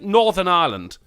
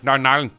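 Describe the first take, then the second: First: It is said in a plain standard accent. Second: It is said in a Northern Irish accent, run together.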